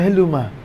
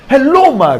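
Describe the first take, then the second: First: The greeting is said flatly, with low energy. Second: The greeting is said brightly, with high energy. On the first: The caller sounds uninterested and untrustworthy. The speaker calls it wrong. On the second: The caller sounds engaged and credible. The speaker calls it right.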